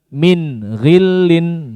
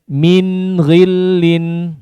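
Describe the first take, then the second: First: There is a short break between the words. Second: The words run together without any break. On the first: The speaker calls it wrong. "bukan min ghillin, ya, tidak ada jedahnya" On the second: The speaker calls it right. "tidak ada jedahnya"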